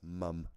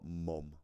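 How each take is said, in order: First: It is said with a British vowel. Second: It is said with an American vowel. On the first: "that's mum, not mom. Because we spell it M U M over here" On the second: "not mom"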